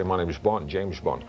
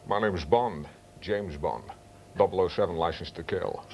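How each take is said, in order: First: Shallow, thin Connery imitation without depth; bad Sean Connery. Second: Lower, deep Connery voice from the side of the mouth; Sean Connery impression with depth. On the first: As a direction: do the Connery everyone does, lacking depth. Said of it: "they speak like that". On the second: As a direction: sink into the real Connery depth. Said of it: "they don't get the actual depth". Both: Shown as a demonstration.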